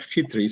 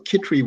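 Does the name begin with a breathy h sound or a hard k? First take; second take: breathy h; hard k. First: The name starts with a rough, breathy h sound. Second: The name starts with a hard k sound. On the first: This is the original Czech way of saying it. "it's actually pronounced" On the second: This is the usual way of saying it in English. "Kitri is a normal way of pronouncing it"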